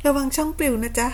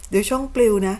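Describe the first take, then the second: First: Sweet mock warning with a higher lilt; teasing singsong warning. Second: Said in the usual way. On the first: Real, not acted. Streamer warning her rival his channel gets banned, sugary taunt.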